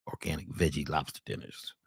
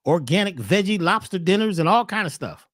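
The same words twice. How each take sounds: First: Low, mocking repeat of the menu; mock deep repeat. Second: Said in the usual way. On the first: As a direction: sneer the words back, deep and dry.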